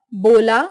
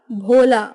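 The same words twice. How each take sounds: First: Unaspirated B in बोला; southern pronunciation. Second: Said in the usual way. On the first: Shown as a demonstration. Teacher showing South Indian speech, बोला without aspiration. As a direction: start बोला with plain ब, not भ. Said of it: "दक्षिणी उच्चारण". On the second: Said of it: "Hindi उच्चारण".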